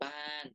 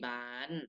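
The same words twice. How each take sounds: First: The final syllable has a falling tone. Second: The final syllable has a high tone. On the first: "ไม้โท" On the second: "ไม้ตรี"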